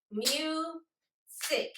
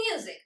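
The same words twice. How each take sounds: First: "Music" as two separate beats, mu, pause, sic; split into syllables. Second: Said in the usual way. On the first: Shown as a demonstration. Teacher clapping syllables for the class, "Music" broken into mu and sic. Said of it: "Let's clap the syllables in the word music". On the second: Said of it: "let's repeat the word first".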